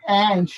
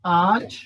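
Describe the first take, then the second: First: "And" as "ant", front "a"; American pronunciation. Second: "Aren't" with a long back "ah"; British pronunciation. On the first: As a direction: say "And" like American "ant", vowel as in cat. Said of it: "these are the differences in accent". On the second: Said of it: "British people say". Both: Shown as a demonstration.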